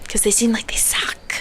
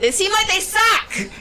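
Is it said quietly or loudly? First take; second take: quietly; loudly. First: It is said quietly. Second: It is said loudly, shouted.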